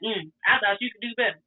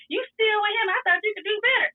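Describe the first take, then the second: First: Said in the usual way. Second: Put-on higher, indignant boyfriend; jealous demand. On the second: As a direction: push him up high and accusing. Boyfriend confronting her, mad.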